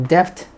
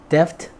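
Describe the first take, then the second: Both takes have the same delivery.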